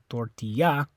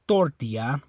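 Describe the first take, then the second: First: The stress is on the last syllable. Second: The stress is on the first syllable. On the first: "It's not the A, you don't say tortilla" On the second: "it's not the O, you don't say tortilla"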